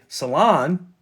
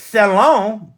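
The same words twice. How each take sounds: First: The word is said in a plain, ordinary way. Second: The word is said in a fancy, affected way. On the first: It is a place to get your nails done. "people are going to think it's a place where you get your little nails done" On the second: It is a place for refined conversation. "We pronounce it salon because we're fancy"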